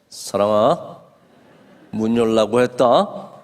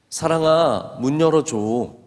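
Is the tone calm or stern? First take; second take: stern; calm. First: It is said sternly and forcefully. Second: It is said calmly and gently.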